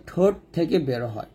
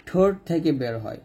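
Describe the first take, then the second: No difference in how they are said.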